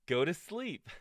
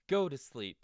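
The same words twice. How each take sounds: First: High, loud shout through giggles; shouting, laughing. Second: High, loud playful shout. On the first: Toad rereading the last list item, giggly shout. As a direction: yell it with a grin. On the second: Toad remembering the last list item, loud shout. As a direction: shout it out cheerfully. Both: Acted. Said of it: "shouted Toad".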